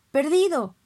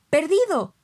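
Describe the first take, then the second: First: Loud, high call of the dog's name; shouted name. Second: Even louder, high desperate call of the name; louder shouted name. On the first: Master yells at his fighting dog, loud sharp call. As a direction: bark the name to stop him. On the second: Master yells again at his dog, louder shout. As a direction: yell the name with full force. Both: Acted. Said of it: "me gritó mi amo".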